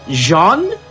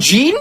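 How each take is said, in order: First: The name is said with French pronunciation. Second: The name is said with English pronunciation. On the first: The speaker calls it right. "His name is called Jean" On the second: The speaker calls it wrong. "and not Jean"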